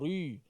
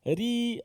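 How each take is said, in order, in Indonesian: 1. Bunyi r diucapkan tebal dan berat. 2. Bunyi r dibuat terlalu tipis, berlebihan. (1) "Ri tebal lah tu" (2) "sampai muka macam tu, takut orang tengok"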